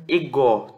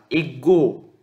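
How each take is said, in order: First: "ego" stressed on GO with open O; open final vowel. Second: "Ego" slowly, stressed on GO with closed O; closed final vowel. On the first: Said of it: "se tornasse um som aberto". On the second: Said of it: "poderiam pronunciar como ego". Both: Shown as a demonstration.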